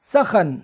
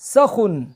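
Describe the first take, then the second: First: The vowels are a, then a. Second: The vowels are a, then u. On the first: "सीन और खे दोनों के ज़बर के साथ" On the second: "सीन के ज़बर और खे के पेश के साथ"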